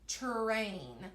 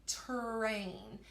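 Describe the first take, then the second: The two takes are said the same way.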